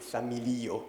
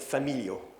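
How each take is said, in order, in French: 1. L'accent tombe sur l'avant-dernière syllabe. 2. L'accent s'éloigne de l'avant-dernière syllabe. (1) "Mais non, c'est familio" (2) "les débutants, ils ont tendance à dire familio"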